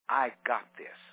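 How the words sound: It is said firmly and confidently. The speaker really believes she can do it. The speaker calls it right. "she said very confidently"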